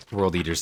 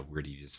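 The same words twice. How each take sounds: First: "World Eaters" with a clear L, "world"; corrected "World Eaters", L sounded out; corrected name. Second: "Word Eaters" said without the L, like "word"; wrong name. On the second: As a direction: misspoken "Word Eaters", no L sound. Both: Real, not acted. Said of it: "I should say".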